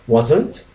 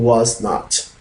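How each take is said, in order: First: The words are contracted into one syllable pair. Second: The two words are said separately in full. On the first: "If contraction, we're going to say wasn't" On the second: "If no contraction, was not"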